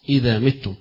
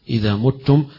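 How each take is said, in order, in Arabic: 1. حركة الفعل الأولى صوت i. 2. حركة الفعل الأولى صوت u.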